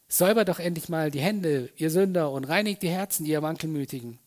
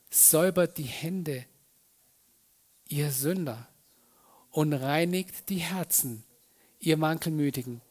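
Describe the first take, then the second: First: It is said in a harsh, scolding tone. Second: It is said in a gentle, inviting tone.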